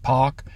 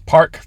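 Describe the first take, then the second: First: No r sound is pronounced after the vowel. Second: An r sound is pronounced after the vowel.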